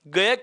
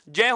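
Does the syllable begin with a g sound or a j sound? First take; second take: g sound; j sound. First: It begins with a hard g sound. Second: It begins with a j sound plus nasal. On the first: This is the common everyday pronunciation. The speaker calls it wrong. "इस ग का उच्चारण क्या किया जाता है? ग किया जाता है" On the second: This is the linguistically correct pronunciation. The speaker calls it right. "च वर्ग का तीसरा वर्ण और उसी के साथ में च वर्ग का पंचमाक्षर"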